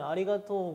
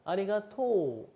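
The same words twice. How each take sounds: First: The final vowel is short. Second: The final vowel is held long. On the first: "감사합니다 하면 아리가토 고자이마스라고 하잖아요" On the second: "이 우자를 조금 길게 끊어주시면 됩니다. 아리가토 이런 식으로"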